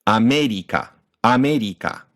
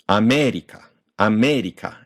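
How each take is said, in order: First: "America" as ah-meh-dee-kah, equal beats; evened syllable length. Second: "America" as ah-MEH-dee-kah, MEH held longer; Japanified, uneven length. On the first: Teacher evening out the length, "America" in four equal syllables. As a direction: give each Japanese syllable of "America" equal time. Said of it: "we even out the syllable length". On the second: Teacher recalling the Japanified word, "America" with long MEH. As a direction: Japanese sounds in "America" with an English long stress. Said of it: "that Japanified word from earlier". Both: Shown as a demonstration.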